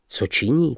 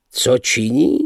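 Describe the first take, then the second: First: Said in the usual way. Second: Mildly scornful question, rising; mocking echo. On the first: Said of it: "tázal jsem se". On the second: A narrator's reading. Patron echoes the narrator's question, mildly mocking. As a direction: throw the question back, rising at the end. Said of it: "opáčil pan Lebeda".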